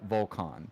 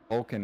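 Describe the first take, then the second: First: The name is said in a Turkish-style way. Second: The name is said in an anglicized way. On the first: This is the name's true pronunciation. The speaker calls it right. "It's uh Volkan technically" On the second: This is how others commonly say the name. The speaker calls it wrong. "Vulcan is not how you pronounce my first name"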